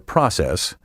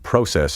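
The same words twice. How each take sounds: First: It is said with an American pronunciation. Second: It is said with a British pronunciation. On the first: "Pronounce the singular process" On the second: "the pronunciation process is British"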